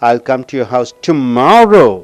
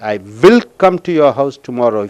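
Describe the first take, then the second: First: The word tomorrow is stressed. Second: The word will is stressed. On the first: The visit will happen tomorrow, not another day. "நாளைக்கு அழுத்தம் கொடுக்கும்போது" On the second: The speaker is sure to come. "If you stress on will"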